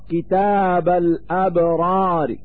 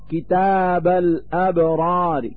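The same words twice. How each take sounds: First: The final r is light, with a faint vowel. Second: The same.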